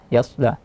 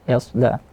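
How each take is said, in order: The two takes are said the same way.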